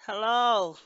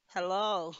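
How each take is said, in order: First: Louder hello into the phone. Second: Mild puzzled hello into the phone; puzzled, unsure anyone is there; a little puzzled. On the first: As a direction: call louder down the line. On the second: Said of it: "A little puzzled". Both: A narrator's reading.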